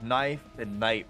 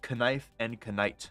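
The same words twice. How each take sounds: First: The initial K is silent in both words. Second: The initial K is sounded in both words. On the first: This is how the words are said today. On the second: This is how the words were said long ago.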